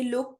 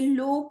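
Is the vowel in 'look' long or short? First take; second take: short; long. First: The vowel is short. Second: The vowel is drawn out long. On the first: The speaker calls it right. "Pronounce ऊ as a short यू when it is followed by के" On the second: The speaker calls it wrong. "ये लुक नहीं है"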